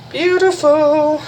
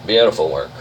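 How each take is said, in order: First: High, slow, stretched-out beautiful; drawn-out delighted praise. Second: Said in the usual way. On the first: Real, not acted. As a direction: sing out the praise, long and high.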